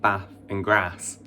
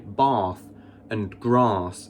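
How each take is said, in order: First: It is said in a non-posh English accent. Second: It is said in a posh southern English accent. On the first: "instead of" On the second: "the posh southerners who say"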